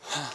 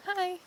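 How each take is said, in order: First: It is flat, like a statement. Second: It is quiet and high-pitched.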